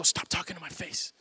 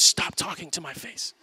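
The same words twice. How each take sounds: First: A quieter take on the daughter's brush-off; softer toddler quote. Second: A lightly put-on toddler voice, firm brush-off; imitating toddler daughter. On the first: Retold or imitated. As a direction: say it softer, lightly imitating a two-year-old. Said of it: "she'll go". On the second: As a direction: play the two-year-old waving dad away. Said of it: "She goes".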